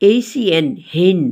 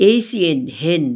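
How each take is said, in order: No difference in how they are said.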